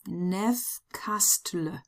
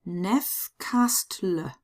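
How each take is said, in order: First: The name is read with German letter sounds. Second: The same.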